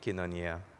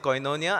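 First: It uses the modern Greek pronunciation. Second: It uses the Erasmus pronunciation. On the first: "the modern Greek pronunciation. So I'm pronouncing it as kinonia" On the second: "I'm not pronouncing it koinonia"

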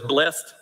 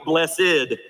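First: The word is said with one syllable. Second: The word is said with two syllables. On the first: The speaker calls it right. "it says blessed" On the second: The speaker calls it wrong. "you never look at that sign and go"

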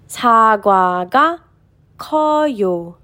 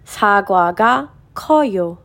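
First: The sentence is read at a slower pace. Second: The sentence is read at a faster pace.

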